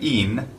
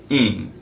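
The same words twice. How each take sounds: First: The mouth closes fully on a clear N. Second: The vowel is nasalized without fully closing. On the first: The speaker calls it wrong. "instead of saying in, which isn't right" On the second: The speaker calls it right. "the nasalization of the vowel sound"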